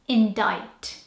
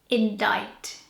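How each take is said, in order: No difference in how they are said.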